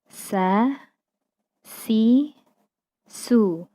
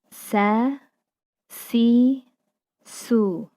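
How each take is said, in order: Both takes have the same delivery.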